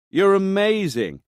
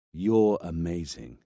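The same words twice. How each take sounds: First: High, slow, gushing praise; delighted praise. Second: Fake compliment. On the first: Acted. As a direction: gush with delight. Montanari praises Greta on phone. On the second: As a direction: repeat the praise mockingly. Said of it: "fake compliments like that".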